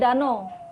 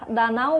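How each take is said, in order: First: The word ends with a plain 'o' vowel. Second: The word ends with the diphthong 'au'. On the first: The speaker calls it wrong. "diucapkan O" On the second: The speaker calls it right. "Diftok A U"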